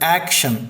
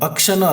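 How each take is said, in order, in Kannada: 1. ಮೊದಲ ಸ್ವರ 'cat' ನಲ್ಲಿರುವ 'a' ತರ. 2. ಮೊದಲ ಸ್ವರ ಚಿಕ್ಕ 'uh'. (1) "ಅದು ಆ್ಯಕ್ಷನ್" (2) "ಅಕ್ಷನೂ ಅಲ್ಲ"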